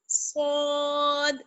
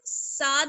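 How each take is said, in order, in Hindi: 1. पहली आवाज़ मोटी और भारी है। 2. पहली आवाज़ पतली और हल्की है। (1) "मोटा पढ़ना है, यानी पुर पढ़ना है" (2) "साद नहीं पढ़ना है"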